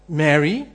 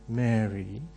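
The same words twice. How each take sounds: First: It is said with mild surprise. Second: It is said tenderly and dreamily.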